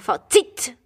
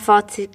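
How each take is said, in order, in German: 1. Die Betonung liegt auf der zweiten Silbe. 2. Die Betonung liegt auf der ersten Silbe. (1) "mega auf die letzte. Zweite Silbe" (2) "Ich sage auch Fazit"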